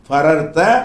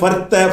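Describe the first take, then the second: First: The two r sounds are split apart. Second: The two r sounds merge into one. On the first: The speaker calls it right. "உடைச்சு போடணும்" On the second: The speaker calls it wrong. "அப்படி சொல்லிடக்கூடாது"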